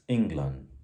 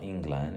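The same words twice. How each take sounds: First: The last syllable is weak and reduced. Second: The last syllable is a full 'land'. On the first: The speaker calls it right. "it's England" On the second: The speaker calls it wrong. "England is not England"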